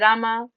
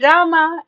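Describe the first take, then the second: First: The name is said softly. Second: The name is said very loudly.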